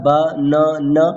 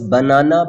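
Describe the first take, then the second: First: Ba-na-na in three separate beats; syllable by syllable. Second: Said in the usual way. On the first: Shown as a demonstration. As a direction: pause between each syllable of ba-na-na. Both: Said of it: "has three syllables".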